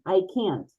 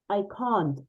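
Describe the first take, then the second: First: It is said in an American accent. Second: It is said in a British accent. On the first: "Americans say" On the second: "and this is I can't"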